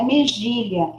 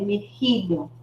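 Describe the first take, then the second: First: The middle consonant is a soft 'zh' sound. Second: The middle consonant is a throaty, rasping sound. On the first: The speaker calls it wrong. "Não é mexilha" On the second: The speaker calls it right. "o J tem som de R"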